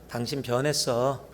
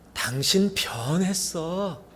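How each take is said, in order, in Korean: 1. 차갑고 기분 나쁜 말투로 말했어요. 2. 따뜻하고 기분 좋은 말투로 말했어요. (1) "그러면은 굉장히 기분이 찜찜해집니다" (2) "억양에 따라서 기분 좋게 들릴 수 있고"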